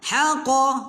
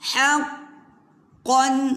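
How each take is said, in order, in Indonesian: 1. Bunyi q tunggal dan pendek. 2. Bunyi q digandakan dan ditahan. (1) "Kalau lalu shortcut haqa, haqa tak jadi" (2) "dia ada tempoh"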